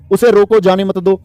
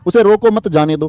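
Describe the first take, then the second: First: "उसे रोको", break, then "जाने मत दो"; group जाने मत दो together, after a break following रोको; pause after रोको. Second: "उसे रोको मत", break, then "जाने दो"; pause after मत. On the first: Teacher showing punctuation to pupils, pause after रोको. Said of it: "याद करो विराम चिन्ह में". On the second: Teacher shifting the comma for pupils, pause after मत. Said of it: "विराम चिन्ह इधर उधर हो गए". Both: Shown as a demonstration.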